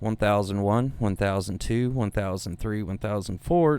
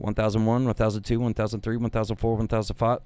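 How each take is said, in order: First: The counting is at a normal, even pace. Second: The counting is rushed and very fast.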